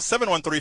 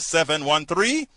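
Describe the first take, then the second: First: The number is said at normal speed. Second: The number is said slowly.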